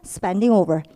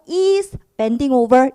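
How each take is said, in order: First: The words run together, sounding like spending. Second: Each word is said separately and clearly. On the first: "spending over 이런 식으로 들리게 되겠고요" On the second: "is bending over 이게 아니고"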